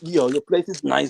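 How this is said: The voice is pitched low and deep. "put the bass back in your voice and tell the story"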